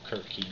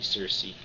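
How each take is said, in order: First: The name begins with a hard K sound. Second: The name begins with a soft S sound. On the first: It may follow the original Greek spelling. "it should be pronounced Kirky with a kappa" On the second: It is the familiar school pronunciation. "I always pronounced it Circe"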